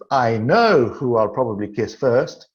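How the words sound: The stress is on the word know. The speaker is certain it will happen. "And in the second sentence"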